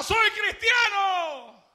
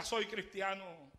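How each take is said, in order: First: High, loud, very slow cry; shouted. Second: Much softer, slow, steady declaration; soft and firm. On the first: Tortured believer shouts his faith, high, loud and very slow. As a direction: defy the torturers. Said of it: "él gritaba". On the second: Preacher recalls the martyr's words, much softer and slow. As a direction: say it quietly, unshaken. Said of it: "Lo único que gritaba era". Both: A narrator's reading.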